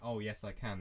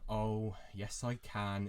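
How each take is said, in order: First: It sounds plain and sincere. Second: It sounds grudging and passive-aggressive. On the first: The speaker is genuinely willing to help. "instead of saying" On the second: The speaker resents being asked. "they'll say it in such a voice that it's passive aggressive"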